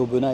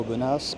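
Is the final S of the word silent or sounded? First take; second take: silent; sounded. First: The final S is silent. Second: The final S is sounded. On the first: The speaker calls it right. "bien prononcer Aubenas ... pas de S à la fin, on ne prononce pas le S" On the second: The speaker calls it wrong. "et pas Aubenas"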